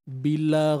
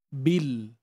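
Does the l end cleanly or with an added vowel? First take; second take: added vowel; clean. First: An extra vowel sound follows the l. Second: The l ends cleanly without a vowel. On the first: The speaker calls it wrong. "itu kita elakkan" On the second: The speaker calls it right. "Jelaskan lam tanpa bunyi yang diberanakkan"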